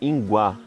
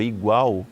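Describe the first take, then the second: First: The word begins with 'ing' and ends in 'á'. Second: The word begins with 'ig' and ends in 'al'. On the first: "chamava inguá" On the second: "a palavra igual"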